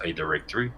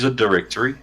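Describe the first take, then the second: First: Lower, softer aside, as if in scare quotes; in quotation marks. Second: Said in the usual way. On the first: Real, not acted. Explaining the little website to the host, in quotation marks. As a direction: set the term apart, dropped down and rising at the end. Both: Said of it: "like, quotation marks".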